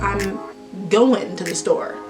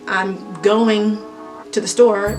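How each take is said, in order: First: The final g of going is dropped. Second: The final g of going is pronounced.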